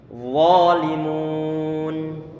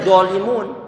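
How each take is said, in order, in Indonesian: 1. Kata ini diawali dengan bunyi th yang mengalir. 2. Kata ini diawali dengan bunyi d yang keras. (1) "Yang benar adalah adalah walimun" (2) "bukan dolimun"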